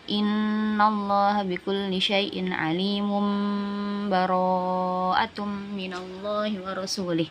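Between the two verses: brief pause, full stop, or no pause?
no pause. The verses run together with no break. "Terus kalau wasol"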